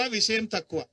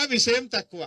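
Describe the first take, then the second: First: Said in the usual way. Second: విషయం తక్కువ punched out loud; loud slogan. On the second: Shown as a demonstration. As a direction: call it out to the crowd with stress on విషయం. Rally speech, repeated slogan louder.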